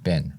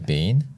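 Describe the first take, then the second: First: The word has an American vowel sound. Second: The word has a non-American vowel sound. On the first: "They say the b e e n becomes like b i n" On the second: "We say"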